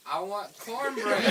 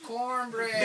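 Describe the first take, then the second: First: Slow, deliberate order. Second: Cornbread said crisply, each sound clear; careful pronunciation. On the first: Ordering again, slowly, from a puzzled waitress. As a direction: spell out I want cornbread slowly. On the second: Testing whether the waitress misheard Cornbread, said carefully. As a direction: enunciate Cornbread as if correcting yourself. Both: Shown as a demonstration. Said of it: "Or maybe I'm not saying it right".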